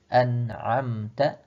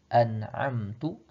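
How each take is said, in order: First: The last syllable is ta. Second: The last syllable is tu. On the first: You have given favor. The speaker calls it right. "dengan harokat fathah di pada huruf ta" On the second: I have given favor. The speaker calls it wrong. "salah kita membaca dengan harokat dhammah"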